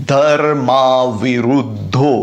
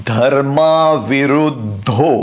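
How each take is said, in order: The two takes are said the same way.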